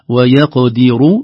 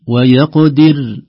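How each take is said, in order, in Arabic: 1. الراء مفخّمة وتتصل بما بعدها. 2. الراء الأخيرة مرققة، والكلمة تنتهي هنا. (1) "لو وصلنا ... تكون مفخمة للضم" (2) "ترقيق الراء عند الوقف عليها"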